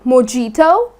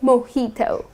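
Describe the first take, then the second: First: The J is said as a hard English J. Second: The J is not said as a hard English J. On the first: The speaker calls it wrong. "putting stress on the J like mojito, that's incorrect" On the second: The speaker calls it right. "You're gonna say mojito"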